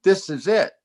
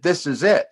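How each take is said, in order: First: Pitched up and pressing; second call, higher than the first; higher, more insistent. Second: Rising, pointed; first of two rising calls; building excitement. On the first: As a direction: push it harder, higher. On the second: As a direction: lean into it with a grin. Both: Retold or imitated. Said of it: "I said".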